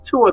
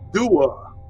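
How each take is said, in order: First: The word begins with a hard T sound. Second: The word begins with a soft D sound. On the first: "instead of saying tua" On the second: "they'll say dua"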